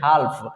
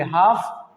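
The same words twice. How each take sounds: First: हाल्फ with L heard before F; wrong sounded L. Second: हाफ with no L before F; silent L. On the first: Teacher quoting some people's mistake, हाल्फ with L. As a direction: pronounce the L in हाल्फ. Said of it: "जो कि गलत sound है". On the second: Teacher models correct reading, हाफ with silent L. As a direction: say हाफ leaving L out. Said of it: "इसको पढ़ेंगे". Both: Shown as a demonstration.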